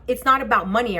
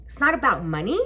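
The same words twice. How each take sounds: First: Said in the usual way. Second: "money" swung up into a question; questioning rise at the end on "money"; incredulous echo. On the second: Retold or imitated. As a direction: repeat it back in disbelief, rising on "money". Echoes officer as a question.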